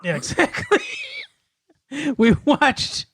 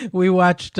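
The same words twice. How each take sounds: First: Giggling through the words; laughing. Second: Said in the usual way. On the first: Real, not acted. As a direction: laugh it out, pitch up high.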